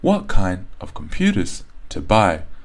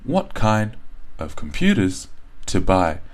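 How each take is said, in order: First: Stressed and unstressed words alternate up and down. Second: The same.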